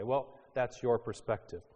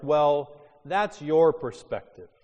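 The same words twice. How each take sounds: First: Said in the usual way. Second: Louder, higher dismissive quote. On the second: Retold or imitated. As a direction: brush off the other view. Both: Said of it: "Things like".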